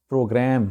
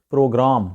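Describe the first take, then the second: First: "پروگرام" as PRO-gram; "a" as in cat ending "پروگرام"; correct pronunciation. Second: "پروگرام" as pro-GRAAM; long open "aa" in "پروگرام"; desi mispronunciation. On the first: Teacher gives correct pronunciation of program, clear model. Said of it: "اس کا صحیح جو تلفظ ہے". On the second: Teacher shows how Asia says program, desi style. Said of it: "دیسی انداز ہے بولنے کا". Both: Shown as a demonstration.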